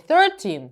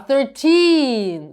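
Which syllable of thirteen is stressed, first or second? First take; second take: first; second. First: The stress is on the first syllable. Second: The stress is on the second syllable. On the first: The speaker calls it wrong. "Не 13" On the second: The speaker calls it right. "У нас наголос на другий склад"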